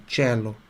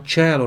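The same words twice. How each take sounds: First: Cello said as chè-lo, open e, soft and low. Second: Cello said as che-lo with a closed e. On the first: Teacher correcting cello for students, open e, softer. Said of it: "na verdade, cello". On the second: Teacher contrasting cello takes for students, closed e first. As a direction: say cello, ch sound then a closed e. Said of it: "Se fala cello". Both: Shown as a demonstration.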